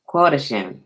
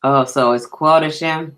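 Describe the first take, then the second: First: "Quotashim" said KWO-ta-shim with a settled fall; second careful try at "Quotashim"; trying the name again. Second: "Quotashim" tried out as KWO-ta-shim, questioning rise; first careful try at "Quotashim"; unsure name. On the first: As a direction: repeat "Quotashim" more confidently. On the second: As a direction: sound out "Quotashim" carefully, not sure of it. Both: Real, not acted. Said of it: "Hope I said it right".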